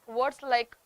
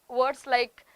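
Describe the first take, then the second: Both takes have the same delivery.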